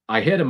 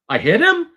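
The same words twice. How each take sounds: First: The voice falls at the end. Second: The voice rises at the end.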